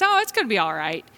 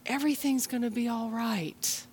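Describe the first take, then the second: First: Dismissive reassurance. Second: Sincere reassurance. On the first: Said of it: "someone says". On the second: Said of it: "people who can say to us". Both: Retold or imitated.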